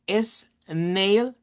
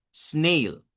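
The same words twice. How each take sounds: First: "snail" split in two, S as its own beat, then nail; S separada. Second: "snail" as one syllable, S joined straight onto the N; una sola sílaba. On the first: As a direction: pull "snail" apart slowly as es... nail. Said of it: "la S no puede ser una sílaba". («snail» partido: es... nail) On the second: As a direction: say "snail" in one unbroken beat. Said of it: "Es también monosílaba". («snail» junto, en una sola sílaba) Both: Shown as a demonstration.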